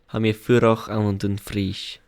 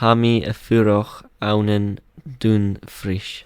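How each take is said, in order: First: It is said at normal conversational speed. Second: It is said slowly and carefully.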